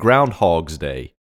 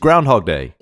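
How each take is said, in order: First: An s sound is added after 'Groundhog'. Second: No s sound comes after 'Groundhog'. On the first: The speaker calls it wrong. "the unnecessary S" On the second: The speaker calls it right. "It's Groundhog Day"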